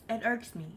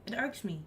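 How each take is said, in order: Both takes have the same delivery.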